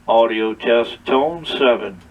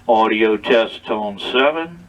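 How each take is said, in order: The two takes are said the same way.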